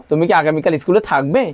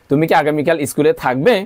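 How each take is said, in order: The two takes are said the same way.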